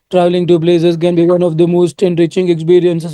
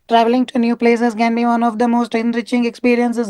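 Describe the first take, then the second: First: The voice is low, thick and husky. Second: The voice is higher, thinner and sharper. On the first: The speaker calls it wrong. "when you have a husky voice, something like this. Very thick, husky voices" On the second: The speaker calls it right. "increase your pitch, sharpen the pitch, thin it. A little sharper, not completely sharp"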